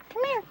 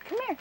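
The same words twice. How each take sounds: First: High coaxing call; calling a cat. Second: Said in the usual way. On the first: Real, not acted.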